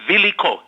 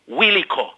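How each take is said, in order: First: The name begins with a V sound. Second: The name begins with a W sound. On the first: It refers to something else entirely. The speaker calls it wrong. "some people pronounce this W as V" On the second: It is the person's actual name. The speaker calls it right. "instead of Wiliko"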